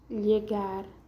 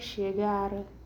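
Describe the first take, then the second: First: The word begins with a y sound. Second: The word begins with an sh sound. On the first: "Tiene el sonido de I como lluvia o llegar" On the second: "el sonido de la S H"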